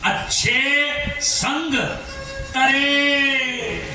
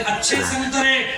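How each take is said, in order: First: The phrase is said slowly, split into parts. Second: The phrase runs together at normal speed. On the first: Good company will save you. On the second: Good oranges are for sale.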